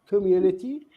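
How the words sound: The middle t is a clear t sound. "in British English it is uh, we can see"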